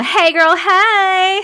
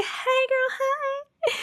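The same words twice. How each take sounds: First: High, loud sing-out greeting; loud playful call. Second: Very high, soft squeaky repeat; tiny high echo. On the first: Streamer reading a viewer's greeting, called out high. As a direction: call it out big and rising. Calling out a greeting being read. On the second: Streamer echoing a viewer's greeting, tiny and high. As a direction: echo the call softly, way up high. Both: Pretend.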